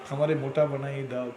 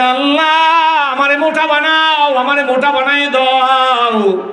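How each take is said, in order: First: Said in the usual way. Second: High, drawn-out imploring cry; calling out to Allah. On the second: Retold or imitated. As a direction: cry out the plea in a long sermon wail. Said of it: "দৌড়ে ডাক দেয়". (উঁচু সুরে টেনে আল্লাহকে ডাকা)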